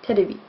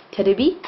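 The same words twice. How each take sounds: First: "Terebi" repeated with a settled falling end; "Terebi" closed off with a falling tune; Japanese loanword for TV. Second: "terebi" said in Japanese, with a light tapped r and a rising end; "terebi" as te-re-bi, tap the r and rise at the end; Japanese loanword for TV. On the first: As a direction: say "Terebi" again, te-re-bi with a tapped r, dropping the pitch at the end. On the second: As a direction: say "terebi" the Japanese way, lifting the last syllable. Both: Shown as a demonstration. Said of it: "There you go".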